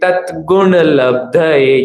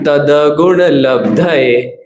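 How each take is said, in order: First: The t before gun is half, without vowel. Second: The d before gun carries a full vowel. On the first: The speaker calls it right. "या तो त आधा बोलेंगे या फिर द आधा, वो भी सही है" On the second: The speaker calls it wrong. "और हम क्या बोल रहे हैं"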